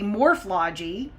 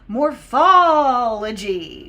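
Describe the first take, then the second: First: The 'uh' vowel before '-logy' is left out. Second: An 'uh' vowel is said before '-logy'. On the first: The speaker calls it wrong. "So we don't study morphology" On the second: The speaker calls it right. "We study morphology"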